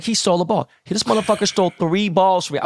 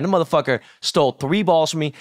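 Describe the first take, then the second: First: Indignant outburst. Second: Said in the usual way. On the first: Retold or imitated. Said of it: "And I was like".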